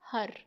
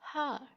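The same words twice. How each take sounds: First: It is said with an Urdu-style accent. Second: It is said with a native English accent. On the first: The speaker calls it wrong. "इसको Urdu tone में अगर आप बोलेंगे" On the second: The speaker calls it right. "इसे native speaking के लिए आप कहेंगे"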